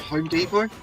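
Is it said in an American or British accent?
American. It is said in an American accent.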